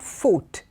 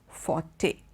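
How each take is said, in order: First: The word ends without a final vowel sound. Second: The word ends with a sounded final vowel. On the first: The speaker calls it wrong. "is not fort" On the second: The speaker calls it right. "The E comes in"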